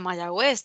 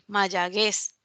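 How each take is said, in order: First: The u after the g is pronounced. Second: The u after the g is silent. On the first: The word is written with the diéresis. The speaker calls it right. "no diría Mayagüez" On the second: The word is written without the diéresis. The speaker calls it wrong. "si no le colocamos esa diéresis a la U ... diría que Mayaguez"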